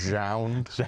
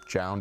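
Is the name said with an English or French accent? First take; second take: French; English. First: The name is said with a French accent. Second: The name is said with an English accent. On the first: "as Jound" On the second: "pronounce Jound"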